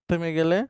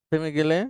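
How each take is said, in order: No difference in how they are said.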